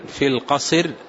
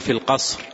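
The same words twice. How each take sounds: First: A vowel sounds between the final two consonants. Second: The final two consonants form a cluster, no vowel. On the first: "نقل الحركة التي على الحرف الساكن سكونا عارضا، نقلها إلى الحرف الصحيح الذي قبلها" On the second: "يعني"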